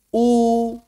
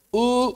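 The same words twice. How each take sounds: First: The vowel is full with a relaxed tongue. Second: The vowel is incomplete with a held tongue. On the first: The speaker calls it right. "Yang penting lidahnya rileks" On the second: The speaker calls it wrong. "Tahan dia. nggak bisa. Suaranya nggak akan sempurna"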